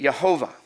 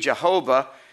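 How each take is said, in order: First: The name begins with a Y sound. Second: The name begins with a J sound. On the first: The speaker calls it right. "It would be Yehovah. The J was a Y sound" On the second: The speaker calls it wrong. "it wouldn't be Jehovah"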